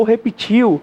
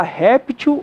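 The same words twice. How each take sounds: First: Repetiu stressed on the last syllable, TIU. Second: Réptil stressed on RÉP. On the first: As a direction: move the stress of repetiu to the end. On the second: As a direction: punch the first syllable of réptil. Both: Shown as a demonstration. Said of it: "Você pode falar".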